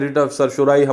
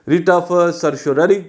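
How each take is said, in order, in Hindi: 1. आखिरी शब्द 'rai' की आवाज़ पर खत्म होता है। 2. आखिरी शब्द 'rari' की आवाज़ पर खत्म होता है। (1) "हमारे माशरे में ज्यादा इसको प्रोनाउंस किया जाता है, दो के इसकी प्रोनाउंसिएशन बेसिकली ये होनी नहीं चाहिए" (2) "क्योंकि लैटिन का लफ्ज है, तो इसका जो बेसिक प्रोनाउंसिएशन है वो रिट ऑफ सरशोररी होना चाहिए"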